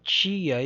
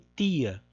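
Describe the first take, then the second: First: The first consonant is a hissing ch sound. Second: The first consonant is a plain t sound.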